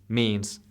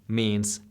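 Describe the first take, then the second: The two takes are said the same way.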